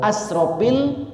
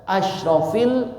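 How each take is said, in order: First: The word has an s sound after the first vowel. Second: The word has an sh sound after the first vowel. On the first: The most wasteful of prophets. The speaker calls it wrong. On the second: The noblest of prophets. The speaker calls it right.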